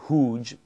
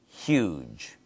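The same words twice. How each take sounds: First: The word starts without a y sound after h. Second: The word starts with an h and y sound. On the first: The speaker calls it wrong. "Not huge" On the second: The speaker calls it right. "but huge"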